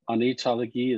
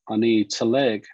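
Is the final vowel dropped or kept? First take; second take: kept; dropped. First: The final vowel is pronounced. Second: The final vowel is dropped. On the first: This is the full form. "Anitalegi is fine" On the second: This is the casual spoken form. "is how a lot of people say it"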